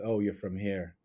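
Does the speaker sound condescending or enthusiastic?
condescending. The tone is cool and condescending. The speaker looks down on the origin. The speaker calls it wrong. "be condescending of that difference"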